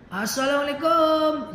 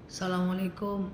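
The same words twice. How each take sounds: First: The greeting is said loudly and harshly. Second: The greeting is said softly and gently. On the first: The speaker calls it wrong. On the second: The speaker calls it right. "ucapkan salam dengan kalimat layyin, dengan bahasa lembut"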